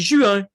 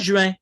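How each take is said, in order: First: The nasal vowel is said with rounded lips. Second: The nasal vowel is said with spread lips. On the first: This is the Quebec way of saying it. "On dit juin. Le un devient un un. ... arrondir les lèvres" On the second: This is not the Quebec way of saying it. "Au Québec, on ne dit pas juin"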